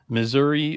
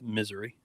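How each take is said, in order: First: It is said with the usual 'Missouri' sounds. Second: It is said so it sounds like 'misery'.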